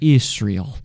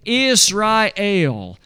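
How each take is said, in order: First: The final syllable el is not emphasized. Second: The final syllable el is emphasized. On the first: "We usually just say Israel" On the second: "to pronounce them that way. Israel. So that we lay an emphasis upon God"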